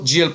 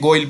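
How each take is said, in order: First: The word is said with a soft j, 'jail'. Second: The word is said with a hard g, 'goyal'. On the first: The speaker calls it right. "इसको जेल pronounce किया जाता है" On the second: The speaker calls it wrong. "कोई बच्चे पढ़ेंगे गोयल पढ़ेंगे"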